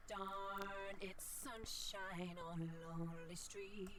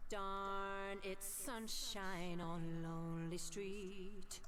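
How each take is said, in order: First: Sung through a time-shift voice filter; robot-filtered singing line; robotic voice effect. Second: Sung slowly with heavy echo; slow sung line drenched in echo; echo effect. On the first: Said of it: "more or less like a robotic voice". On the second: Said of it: "And this is the echo". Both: Shown as a demonstration.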